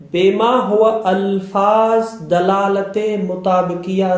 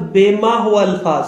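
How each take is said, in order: First: « بے ما ہوا الفاظ » dit très lentement, mot à mot; slow dictation pace. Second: Said in the usual way. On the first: Shown as a demonstration. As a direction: spell it out slowly so students can note it. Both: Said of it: "یہ بات، یہ بات رکھیں".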